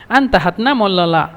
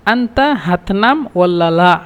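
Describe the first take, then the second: First: Said in the usual way. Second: Slow, careful teaching repeat; drawn-out model question; slow demo. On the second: Shown as a demonstration. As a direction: say the question slowly so students catch it.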